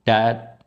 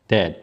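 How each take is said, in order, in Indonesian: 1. Vokalnya lebih dekat ke a terbuka. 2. Vokalnya lebih dekat ke e. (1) "Dad lebih ke a" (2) "Kalau ini e"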